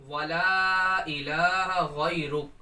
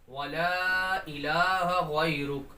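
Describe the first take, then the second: No difference in how they are said.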